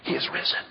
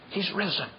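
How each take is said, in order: First: The phrase is said at full, open volume. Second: The phrase is said softly and quietly. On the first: It is an open, public greeting. "it became a popular greeting" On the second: It is a secret greeting during persecution. "during the persecuted times, they would say it quietly"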